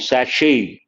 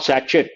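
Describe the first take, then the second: First: Sachet said sashay, no T; correct sachet. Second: Sachet with a T, satchet; the wrong one: sachet as sa-chit. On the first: Teacher contrasts for students: sachet as sashay. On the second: Teacher contrasts for students: the wrong satchet. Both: Shown as a demonstration. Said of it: "not sachet".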